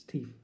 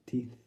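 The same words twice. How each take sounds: First: "teeth" ending on an f; impaired speech. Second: Said in the usual way. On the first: Acted. Poet telling Keith's loss his way, impaired "teef". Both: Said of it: "but to Keith".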